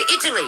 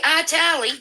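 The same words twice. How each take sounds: First: Italy is said with the usual, standard pronunciation. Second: Italy is said with a mocked, nonstandard pronunciation. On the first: This is how native speakers say it. The speaker calls it right. "We say Italy" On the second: This is how people who can't pronounce it say it. The speaker calls it wrong. "we don't say Italy"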